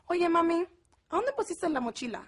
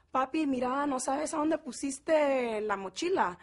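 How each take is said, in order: First: Higher, singsong Mexico City Spanish; chilanguita accent. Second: Put-on Guatemalan Spanish accent. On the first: Retold or imitated. Sister asking mami about the backpack, high chilanguita accent. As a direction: imitate a very Mexican sister, pitched up. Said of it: "My sister has her little chilanguita accent". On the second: Asking papi about the backpack, Guatemalan Spanish accent. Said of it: "two completely different types of Spanish".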